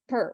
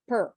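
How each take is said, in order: First: The syllable has a short reduced vowel. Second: The syllable has a short reduced vowel.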